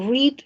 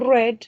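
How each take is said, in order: First: It is pronounced as the present-tense form. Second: It is pronounced as the past-tense form. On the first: The action happens now. "es que es afirmativo, o sea que es presente" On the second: The action already happened. "sería pasado"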